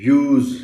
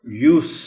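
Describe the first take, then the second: First: Loud, clear "yooz" for use; z sound in use. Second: یوس as the noun, "yoos"; loud, clear "yoos" for یوس; s sound in یوس. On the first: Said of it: "sound آتی ہے". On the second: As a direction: end یوس on a sharp unvoiced s. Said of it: "سین کی آواز ہے". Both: Shown as a demonstration.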